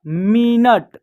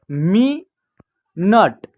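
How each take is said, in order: First: मिनट joined as one word; blended word. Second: मी and नट said apart, slowly, with a pause; split syllables. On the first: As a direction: say मिनट whole, without a break. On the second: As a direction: sound it out as मी, then नट. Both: Shown as a demonstration. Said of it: "कैसे उच्चारण कीजिएगा".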